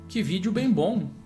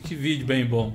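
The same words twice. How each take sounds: First: It sounds cheerful and sincere. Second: It sounds mocking and sarcastic.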